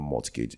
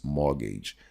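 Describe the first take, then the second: First: The T in the middle is pronounced. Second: The T in the middle is silent. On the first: The speaker calls it wrong. "It's not mortgage" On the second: The speaker calls it right. "it's mortgage. The T is silent"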